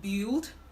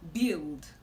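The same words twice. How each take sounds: First: An extra vowel sound comes before the i. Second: No extra vowel sound comes before the i. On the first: The speaker calls it wrong. "this word is commonly pronounced build" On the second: The speaker calls it right. "the right way to pronounce this word is build"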